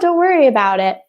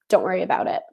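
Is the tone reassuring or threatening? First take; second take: reassuring; threatening. First: The tone is relaxed and reassuring. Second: The tone is tense and threatening. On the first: Everything is fine between us. "ah, don't worry about it, everything's good, we're good" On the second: It is a warning not to repeat it. "but don't worry about it. Very different"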